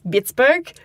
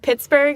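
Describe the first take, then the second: First: It begins with a B sound. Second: It begins with a breathy P sound.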